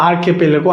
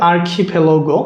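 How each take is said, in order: First: "আর্কিপেলাগো" said as ar-ke-pe-le-go; unaspirated k and p in "আর্কিপেলাগো"; "আর্কিপেলাগো" sounded out with "ke-pe-le" in the middle; alternative pronunciation. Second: "আর্কিপেলাগো" said as ar-khi-phe-lo-go; "আর্কিপেলাগো" sounded out with "khi-phe" in the middle; variant pronunciation. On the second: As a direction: give "আর্কিপেলাগো" aspirated kh and ph. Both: Shown as a demonstration. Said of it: "অনেক sound হয়".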